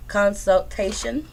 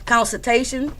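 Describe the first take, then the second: First: "consultation" sounded out slowly, part by part; slow, careful second try at "consultation"; careful pronunciation. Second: Said in the usual way. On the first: Shown as a demonstration. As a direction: work through "consultation" slowly, syllable by syllable. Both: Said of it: "how you say it?".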